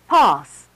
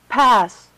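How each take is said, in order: First: It is said in an RP accent. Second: It is said in a General American accent.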